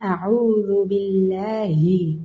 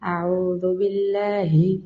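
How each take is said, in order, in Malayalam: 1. ഹംസയും ബായും അവയുടെ പൂർണ സ്വരങ്ങളോടെയാണ്. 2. ഹംസയും ബായും സ്വരചിഹ്നമില്ലാതെ ചുരുക്കിയാണ് ഉച്ചരിക്കുന്നത്.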